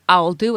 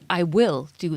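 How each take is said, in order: First: "I will" is run together quickly into one syllable. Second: "I will" is said as two full words.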